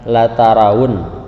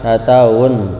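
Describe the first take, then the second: First: The middle 'ra' syllable is clearly pronounced. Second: The middle 'ra' syllable is dropped. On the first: The speaker calls it right. "harus jelas" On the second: The speaker calls it wrong.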